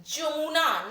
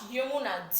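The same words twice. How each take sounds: First: "Jamuna" starting on a hard J sound. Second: The rejected Y version, "Yamuna". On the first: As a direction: say "Jamuna" with J as in jam, not Y. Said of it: "J, Jamuna". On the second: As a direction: say "Yamuna" with Y as in yes, not J. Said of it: "not Yamuna". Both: Shown as a demonstration.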